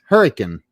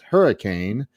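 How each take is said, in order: First: The word is squeezed into nearly one syllable. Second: The word is said with all its syllables. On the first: This is how the locals say the town's name. "almost say it in one syllable" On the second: This is the usual pronunciation elsewhere. "they do not refer to it as hurricane"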